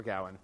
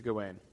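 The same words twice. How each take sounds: First: Gawain said GOW-un; first-syllable stress. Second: Gawain said guh-WAYN; last-syllable stress. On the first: Lecturer offhandedly correcting to the other name, first-syllable stress. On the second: Lecturer switching between the two names, last-syllable stress. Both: Shown as a demonstration. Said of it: "Or Gawain, you know, whatever".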